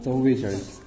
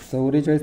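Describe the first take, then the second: First: The word begins with 'chav' and a doubled v. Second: The word begins with a 'chau' sound. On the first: The speaker calls it right. "खरं हेच होय" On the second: The speaker calls it wrong. "नाही म्हणायचं"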